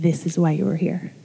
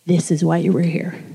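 First: Hushed voice of God. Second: Quiet voice of God. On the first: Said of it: "And he said". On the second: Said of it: "I felt God say to me". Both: Retold or imitated.

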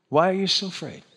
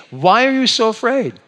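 First: Mean. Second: Kind. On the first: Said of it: "You don't need to be mean about it". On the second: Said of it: "you just say". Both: Shown as a demonstration.

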